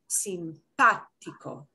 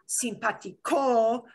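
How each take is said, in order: First: The stress is on the second syllable. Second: The stress is not on the second syllable. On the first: The speaker calls it right. "but simpático" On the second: The speaker calls it wrong. "not simpático"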